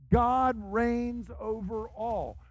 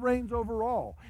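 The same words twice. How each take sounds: First: Langsam, jedes Wort betont: God reigns over all; slow solemn proclamation. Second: Said in the usual way. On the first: Acted. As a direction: feierlich verkünden, Wort für Wort. Refrain repeated as solemn proclamation.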